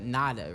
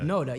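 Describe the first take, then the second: First: The first vowel sounds like 'nah'. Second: The first vowel sounds like 'no'. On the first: The speaker calls it wrong. "People want to say uh, nada, right?" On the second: The speaker calls it right. "Noda, yeah"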